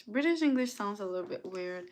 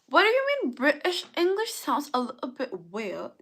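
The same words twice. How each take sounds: First: Said in the usual way. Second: Mock-offended British accent. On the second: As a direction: protest in a put-on British accent. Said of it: "would you like me to speak like this".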